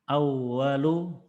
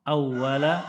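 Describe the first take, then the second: First: The word ends with an 'u' vowel. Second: The word ends with an 'a' vowel. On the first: The speaker calls it wrong. "kenapa harusnya awalu" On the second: The speaker calls it right. "Kenapa awwala? Karena ada kana"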